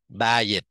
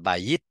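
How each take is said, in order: First: The first syllable carries the stress. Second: The first syllable carries no stress. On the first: "Mình nhấn cái chữ đầu" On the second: "nếu mà không có nhấn đó là bà dít"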